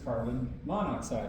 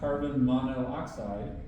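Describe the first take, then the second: First: The prefix vowel is dropped: monoxide. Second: The prefix keeps its vowel: mono-oxide. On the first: The speaker calls it right. "It is carbon monoxide" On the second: The speaker calls it wrong. "is not carbon monoxide"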